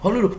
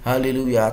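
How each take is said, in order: First: The word is said faster. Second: The word is said slowly. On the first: "Terus lebih cepat" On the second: "gerakkan pelan-pelan sambil berkata haleluya"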